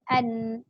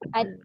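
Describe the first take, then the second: First: The sound resonates freely through the nose. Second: The sound is blocked and nasal resonance is missing. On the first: "Tapi dia naik ke hidung" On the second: "Dia tak naik kalau kita kepit. Dia jadi ad"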